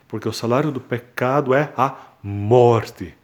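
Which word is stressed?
morte. The word morte carries the main stress. The focus is that the result is death.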